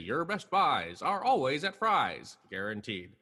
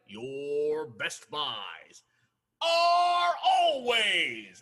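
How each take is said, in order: First: It is said in a calm, normal voice. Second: It is screamed loudly, as if angry.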